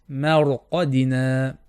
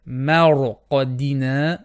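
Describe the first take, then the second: No difference in how they are said.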